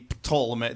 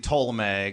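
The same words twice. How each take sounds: First: The word starts with a P then T sound. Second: The word starts with a plain T sound. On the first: This is the Greek way of saying it. "Greek would be Ptolemy. They actually pronounce the P" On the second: This is the English way of saying it. "as more English would be"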